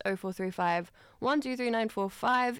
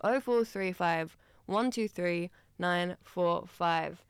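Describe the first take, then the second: First: Rushed. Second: Slow, measured phone number; slower. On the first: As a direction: tear through the phone number. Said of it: "why did I tear through that". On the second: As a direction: read the digits slowly in separate groups. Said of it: "I'll say that slower". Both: Real, not acted.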